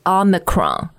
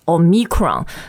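First: The stress is on the first syllable. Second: The stress is on a later syllable. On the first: The speaker calls it right. "重音在 O 上面" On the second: The speaker calls it wrong. "不是 Omicron"

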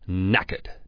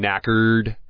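First: The r sound after the vowel is dropped. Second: The r sound after the vowel is pronounced.

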